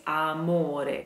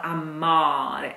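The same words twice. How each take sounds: First: Amore with a clear O; right amore. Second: Amare with an A, marked wrong. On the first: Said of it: "it is amore". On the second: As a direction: say amare as the error. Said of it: "It's not amare". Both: Shown as a demonstration.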